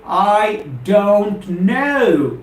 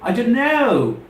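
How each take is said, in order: First: The three words are said separately, one by one. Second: The three words run together in one smooth phrase. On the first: The speaker calls it wrong. "Never ever say I don't know. I don't want you to treat them as three different words" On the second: The speaker calls it right. "In spoken English, I say I don't know"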